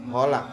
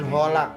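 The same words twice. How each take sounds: First: The word starts with a soft h sound. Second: The same.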